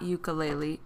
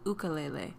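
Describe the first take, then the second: First: The word has a common anglicized pronunciation. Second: The word has a native-style, culturally faithful pronunciation. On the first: The speaker calls it wrong. "It's not ukulele" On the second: The speaker calls it right. "it's ukulele"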